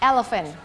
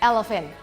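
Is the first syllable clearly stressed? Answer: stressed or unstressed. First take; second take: stressed; stressed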